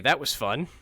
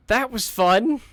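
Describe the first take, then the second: First: Said in the usual way. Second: Much higher, louder mock glee; sarcastic excitement. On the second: Shown as a demonstration. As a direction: overdo the cheer.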